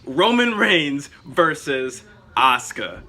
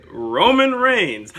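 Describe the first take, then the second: First: Slow, stretched arena announcer call; drawn-out wrestling matchup announcement; ring announcer matchup. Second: Drawn-out, loud, higher ring announcer call; slow booming wrestler introduction; ring announcer intro. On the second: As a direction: stretch the name like an arena announcer. Hyping a wrestling matchup. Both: Pretend.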